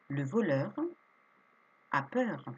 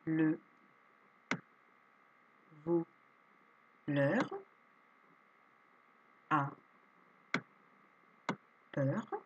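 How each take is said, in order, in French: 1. Elle se lit vite, d'un seul bloc. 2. Elle se lit lentement, une syllabe à la fois. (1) "Vous vous entraînez à la relire plusieurs fois rapidement" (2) "je lis des phrases"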